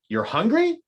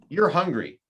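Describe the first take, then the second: First: It is said as a question, inflecting the end. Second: It is said as a plain statement. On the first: It asks someone whether it is true. "That's a question" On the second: It tells someone a fact. "That's a statement"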